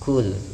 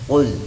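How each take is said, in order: First: The first consonant is thin and light. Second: The first consonant is thick and deep. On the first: It means eat. The speaker calls it wrong. "jangan dibaca dengan tipis atau membacanya seperti huruf kaf" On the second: It means say. The speaker calls it right. "membacanya dengan isti'la, dengan sifat yang tebal"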